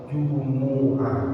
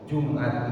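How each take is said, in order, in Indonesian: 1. Huruf m diikuti vokal u. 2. Huruf m tidak diikuti vokal. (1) "mimnya dibaca dhammah" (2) "mimnya dibaca mati sukun"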